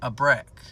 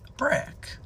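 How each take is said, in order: First: Said in the usual way. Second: High whispered echo of the word brick; breathy whisper. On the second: Retold or imitated.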